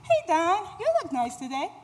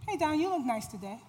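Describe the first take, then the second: First: It is said in a lightly flirty tone. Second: It is said in a plain, friendly tone.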